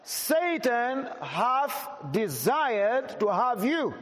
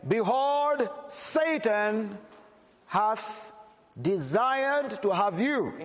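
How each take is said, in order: First: Very slow, every word weighed, "Satan" drawn out; emphasized slowly. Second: Raised, measured Bible reading before the emphasis; scripture reading. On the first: Preacher repeating the verse for emphasis, very slow and weighty. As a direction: lean on each word so the church feels it. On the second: Preacher reading the verse to the church, raised and measured. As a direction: read the verse out to the congregation. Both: Shown as a demonstration. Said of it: "May I emphasize those words again?".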